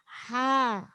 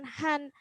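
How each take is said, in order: First: The syllable ends on a long vowel. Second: The syllable ends with an n sound. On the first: The speaker calls it right. "bunyinya ha" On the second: The speaker calls it wrong. "bunyinya bukan han"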